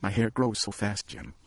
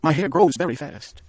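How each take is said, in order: First: Wife comforting husband through tears; brave smile. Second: High and loud, pleading to be forgiven; wife begging husband not to be upset; anxious plea. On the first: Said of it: "look up with a smile and say". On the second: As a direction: rush it out hoping he'll accept it. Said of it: "she cried". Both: A narrator's reading.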